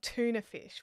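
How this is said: It is said in a non-Australian way. "not not tuna fish"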